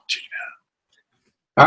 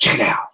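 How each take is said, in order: First: Slow drawn-out whisper. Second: Said in the usual way. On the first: Pretend. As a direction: breathe the words out slowly. Catchphrase repeated as whisper.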